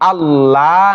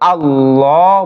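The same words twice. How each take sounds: First: The L is light and thin. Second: The L is heavy and thick. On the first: The speaker calls it wrong. "এখানে আল্লাহ না বলে" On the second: The speaker calls it right. "মোটা করেছি"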